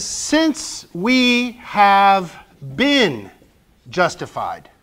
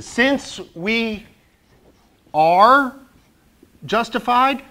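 First: Since we have been spoken very slowly, each word weighted; deliberate slow quote of the verse; slow stressed quote. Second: Since we are justified, said as a suggestion; light alternative take; alternative wording. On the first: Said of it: "He says". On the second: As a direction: offer it as the other option. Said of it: "what else could he have said?". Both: Shown as a demonstration.

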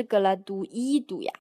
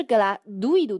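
First: "gratuito" split as gra-tu-I-to, stress on the I; mistaken stress. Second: "gratuito" as gra-TUI-to, "ui" one stressed syllable; correct stress. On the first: Teacher voicing the students' doubtful reading, mistaken stress. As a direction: break "ui" apart and lean on the I in "gratuito". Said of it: "在一上加了一个开音符号之后所发的音". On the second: Teacher answering the students' doubt, correct stress. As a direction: punch "tui" in "gratuito" as a single gliding syllable. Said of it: "读的是gratuito". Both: Shown as a demonstration.

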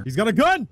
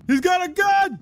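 First: A startled warning, raised up; alarmed shout. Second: Much higher, full panic shriek; panicked shriek. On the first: Gamer warning chat as an enemy draws a gun, alarmed. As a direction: blurt out the danger. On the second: Gamer repeats the warning to chat, now a panicked shriek. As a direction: squeal it out in alarm. Enemy pulls a gun. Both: Real, not acted.

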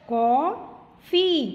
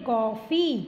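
First: कॉफ़ी said slowly, the ऑ drawn out open; कॉफ़ी, slow and stretched. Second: Said in the usual way. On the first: Shown as a demonstration. (कॉफ़ी को धीरे, ऑ खींचकर) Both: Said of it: "ओ की sound आती है इससे".

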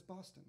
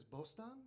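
First: Said in the usual way. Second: "Bostan" said bost-AHN with open a's, rising in question; Turkish-sounding Bostan. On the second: Retold or imitated. Old priest hears her city as the Turkish "Bostan", asking. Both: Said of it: "Bostan is the Turkish word".

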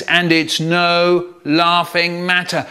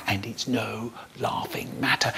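First: Slow, emphatic scolding; stern dad. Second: Whispered, barely sounded mimicry; silent mouthing. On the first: Acted. Dad rebuking his laughing son, stern. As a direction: weigh each word as a warning. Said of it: "so my dad says". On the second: Brother mouthing behind Dad's back, whispered mockery. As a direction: mouth Dad's words almost without voice. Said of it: "he's going with his mouth".

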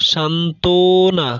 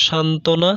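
First: Slow, careful সান্ত্বনা said as সান্তনা with no ব; silent b-phala. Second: Said in the usual way. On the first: Shown as a demonstration. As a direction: spell out সান্ত্বনা slowly, dropping the ব, সান্তনা. (সান্ত্বনা ধীরে ধীরে ব বাদ দিয়ে সান্তনা উচ্চারণ) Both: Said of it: "বয়ের উচ্চারণ অনুচ্চারিত থাকে".

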